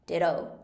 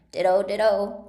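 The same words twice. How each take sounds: First: Said in the usual way. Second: Loud, emphatic cry; shouted. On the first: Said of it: "said Tweedledum". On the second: A narrator's reading. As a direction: shout both words out, full volume. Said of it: "He shouted this so loud".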